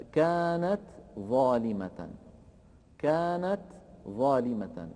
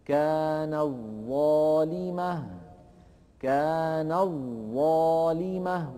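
First: "كانت ظالمة" with a clear ت, then a pause before ظ; unmerged ta. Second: "كانت ظالمة" chanted slowly, ت lost in a long doubled ظ; slow recitation of "كان الظالمة" as one joined word; assimilated ta. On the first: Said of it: "التاء والظاء من مخرجين متقاربين". ("كانت ظالمة" بإظهار التاء) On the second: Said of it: "فيقول هكذا". ("كان الظالمة" بإدغام التاء في الظاء) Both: Shown as a demonstration.

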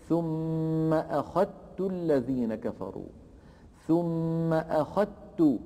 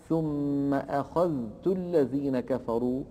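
First: "أخذت" with a doubled ت and no ذ; slow "أخذت", ذ merged into a held ت; assimilated dhal. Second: "أخذت" with the ذ sounded before ت; slow reading, ذ and ت distinct in "أخذت"; unmerged dhal. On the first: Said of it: "بالتاء المشددة". ("أخذت" بتاء مشددة) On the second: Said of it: "فإن ورشا يدغم فيقول". ("أخذت" بإظهار الذال) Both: Shown as a demonstration.

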